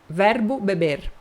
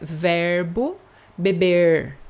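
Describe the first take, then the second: First: The final R is the São Paulo style R. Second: The final R is a retroflex R. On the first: "eu sou de São Paulo, eu falo R" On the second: "com o R retroflexo"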